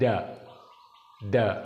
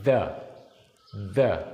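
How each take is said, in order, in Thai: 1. เริ่มด้วยเสียง d แบบไทย 2. เริ่มด้วยเสียง th ลิ้นแตะระหว่างฟันเบาๆ (1) "ถ้าเป็นเสียงดอเด็กแบบไทยๆ" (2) "อันนี้ถูกต้อง"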